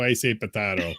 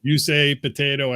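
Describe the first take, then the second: First: "potato" with a broad ah, potahto; alternate pronunciation. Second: "potato" with an American ay sound; standard pronunciation. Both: Shown as a demonstration. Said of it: "You say potato, I say potato".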